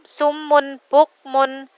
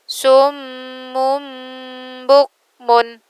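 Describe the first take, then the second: First: The n is said clearly before b. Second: The n is changed into an m before b. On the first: The speaker calls it wrong. "bukan sumun bukmun" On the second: The speaker calls it right. "tapi dimasukkan ke ba, diganti ke dalam huruf ba"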